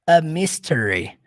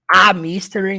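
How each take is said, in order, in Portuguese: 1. O artigo tem uma vogal curta e reduzida. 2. O artigo tem uma vogal plena e aberta. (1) "Você vai pronunciar com um sonzinho do a" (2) "você não fala a, a mystery, não"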